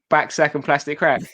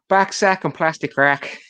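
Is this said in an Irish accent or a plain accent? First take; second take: plain; Irish. First: It is said in the speaker's ordinary accent. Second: It is said in an Irish accent.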